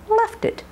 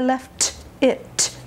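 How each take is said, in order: First: The words are joined with a soft flapped D. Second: There is a break between the two words. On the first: The speaker calls it right. "link the two with a soft D, tongue behind the teeth briefly" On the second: The speaker calls it wrong. "You don't want to say I left it and break"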